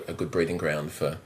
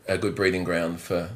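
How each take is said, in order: Both takes have the same delivery.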